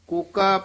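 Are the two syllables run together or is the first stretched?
run together. The two syllables run together without a break. The speaker calls it wrong. "ਕੋਕਾ ਪਾਠ ਨਹੀਂ ਕਰਨਾ"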